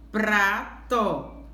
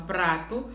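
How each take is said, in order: First: "prato" split as PRA... to; teacher sounding out "prato" in two separate syllables. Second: Said in the usual way. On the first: Shown as a demonstration. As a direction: draw out "pra", pause, then add "to". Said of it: "Pra é o pedacinho mais forte".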